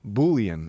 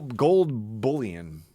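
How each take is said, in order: First: "Bullion" with a long oo, like "boo-lee-un"; "Bullion" tried with a long first vowel; alternative pronunciation of bullion. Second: Slow "bullion" with a short vowel as in "pull"; "bullion" drawn out, short u as in "full"; unsure pronunciation of bullion. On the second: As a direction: say "bullion" slowly, first syllable like "bull". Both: Real, not acted. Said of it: "I don't know how to fucking say that word".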